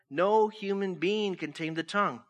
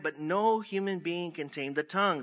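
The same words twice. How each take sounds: First: "No human being can tame the tongue" driven home firmly; emphatic repeat. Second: Said in the usual way. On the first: Shown as a demonstration. Preacher repeating the verse for the congregation, emphatic. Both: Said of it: "let me say that again".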